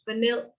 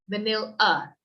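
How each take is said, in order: First: The first vowel is a weak uh sound. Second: The first vowel is a full, clear vowel. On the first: The speaker calls it right. "It's more of an uh sound" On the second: The speaker calls it wrong. "I wouldn't say vanilla"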